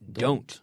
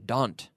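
First: The vowel glides toward a little 'oo' sound. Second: The vowel is flat with no 'oo' glide. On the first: The speaker calls it right. "Please say don't. ... With a little U in there, exactly" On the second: The speaker calls it wrong. "I hear a lot of people say, don't. ... please don't say that"

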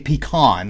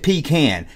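First: The second syllable sounds like con. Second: The second syllable sounds like can. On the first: "like it has an O in it" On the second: "C-A-N is can"

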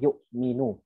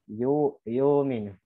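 First: The glottal stop is pronounced clearly. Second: The glottal stop is dropped, said lazily. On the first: The speaker calls it right. "Nah itu namanya hamzah yang tahqiq tuh. Mesti jelas" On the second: The speaker calls it wrong. "Jangan dibacanya begini. Jangan kayak malas gitu"

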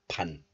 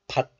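First: The syllable ends in a nasal n sound. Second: The syllable ends in a stopped t sound. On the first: "the final consonant digit becomes nasalized into niun" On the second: "This letter is pronounced as 받 in isolation"

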